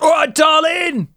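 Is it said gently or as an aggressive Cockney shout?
Cockney shout. It is shouted aggressively in a Cockney accent.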